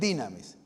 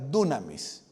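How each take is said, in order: First: The first vowel sounds like 'ee'. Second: The first vowel sounds like 'oo'. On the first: This is the modern Greek pronunciation. "La pronunciación moderna en griego es dinamis" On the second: This is the ancient Greek pronunciation. "La pronunciación antigua es dunamis"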